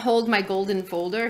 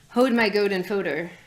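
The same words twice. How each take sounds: First: The L sounds are clearly pronounced. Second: The L sounds are dropped.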